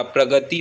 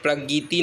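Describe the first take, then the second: First: प्रगति said as "pragati", short a after g; correct middle vowel. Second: प्रगति said as "pragiti", i after g; wrong middle vowel. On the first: Teacher giving the correction, प्रगति said as "pragati". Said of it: "प्रगति होता है". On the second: Teacher showing the mistake, प्रगति said as "pragiti". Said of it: "प्रगति नहीं होता". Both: Shown as a demonstration.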